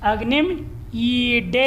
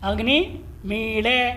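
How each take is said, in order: First: The last word has a d-like retroflex consonant. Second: The last word has an l-like retroflex consonant.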